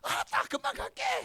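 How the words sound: It is said in high-pitched Gyeongsang dialect.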